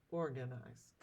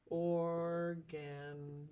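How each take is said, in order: First: Said in the usual way. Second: Organize stretched very slowly by syllable; or, gan, ize, spaced apart; syllables split. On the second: Shown as a demonstration. Teacher splits organize for class, very slowly. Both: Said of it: "how we would split the syllables".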